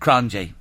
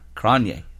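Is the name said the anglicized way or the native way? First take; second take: anglicized; native. First: The name is said with an anglicized pronunciation. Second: The name is said with its native pronunciation. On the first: The speaker calls it wrong. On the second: The speaker calls it right. "That's right"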